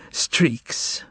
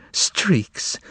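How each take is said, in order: First: Breathless unvoiced whisper of streaks, almost no voice; whispered through tears. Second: Streaks repeated with voice, higher and falling; voiced tearful cry. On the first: Margarita to the master, whispering streaks through tears. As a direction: breathe streaks out on air alone. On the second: Margarita to the master, streaks cried aloud. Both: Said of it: "She whispered to him".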